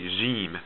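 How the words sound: It begins with a soft French j sound. "we pronounce this more like j, like French j"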